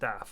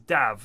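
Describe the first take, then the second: First: The name ends with an f sound. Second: The name ends with a v sound. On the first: The speaker calls it wrong. "not Daff. I've mispronounced his name for years" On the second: The speaker calls it right. "it also is Dav"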